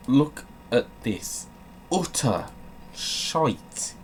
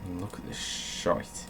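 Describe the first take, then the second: First: "utter" and "shite" rising in pitch; rising scornful emphasis; emphatic disgust. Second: Whispered under the breath; hushed disgusted take; muttered disgust. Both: Real, not acted.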